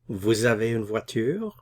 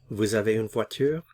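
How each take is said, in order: First: The voice rises at the end. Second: The same.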